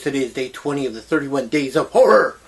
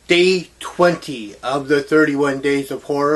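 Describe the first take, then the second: First: It is said fast. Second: It is said more slowly.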